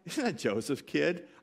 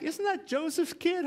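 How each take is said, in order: First: It sounds scornful and dismissive. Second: It sounds proud and admiring.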